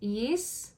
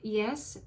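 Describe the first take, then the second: First: It is said with a New Zealand accent. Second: It is said with a standard English accent.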